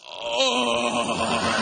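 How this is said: It is said in a coarse, rough voice.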